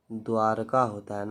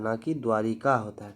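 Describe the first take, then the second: First: द्वारका said with no i, dvaarkaa; correct form. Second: द्वारिका said with the extra i, dvaarikaa; wrong form. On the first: Teacher corrects spelling, says द्वारका as dvaarkaa. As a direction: say द्वारका plainly, without the i sound. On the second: Teacher contrasts, says the wrong द्वारिका with i. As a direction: stress the i in द्वारिका as the mistake. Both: Shown as a demonstration.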